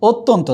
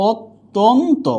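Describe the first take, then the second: First: Said in the usual way. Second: অত্যন্ত higher, in pieces, "ot... ton... to"; syllable-by-syllable demo. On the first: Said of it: "কি বলেছিলাম". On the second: Shown as a demonstration. Teacher recalling an earlier example, split-syllable demo. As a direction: separate each syllable of অত্যন্ত. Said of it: "যেমন এটা বলেছিলাম".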